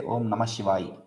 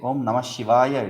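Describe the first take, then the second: First: The final vowel of the last word is dropped. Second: The final vowel of the last word is pronounced. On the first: The speaker calls it wrong. "they always drop the final vowel" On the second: The speaker calls it right. "Om Namah Shivaya it is"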